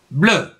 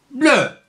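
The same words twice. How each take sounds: First: Said in the usual way. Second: High puppet bear voice, falling; high cartoon bear repeating a syllable; Syllabe the bear. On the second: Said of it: "je suis l'ours Syllabe".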